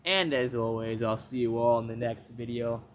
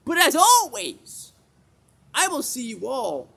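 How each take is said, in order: First: Said in the usual way. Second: Stretched high sing-song sign-off; high outro voice. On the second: Acted. Failed outro, high slow voice.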